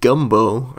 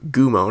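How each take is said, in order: First: A B sound comes before the final vowel. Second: No B sound comes before the final vowel. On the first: The speaker calls it wrong. "I thought there was a B there" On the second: The speaker calls it right. "or Gumo, not Gumbo"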